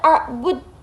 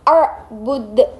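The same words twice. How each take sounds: First: The final d is held without any bouncing echo. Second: The final d is released with a bouncing echo. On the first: The speaker calls it wrong. "Tidak boleh arbud" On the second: The speaker calls it right. "jadi dibacanya kolkolah kubro"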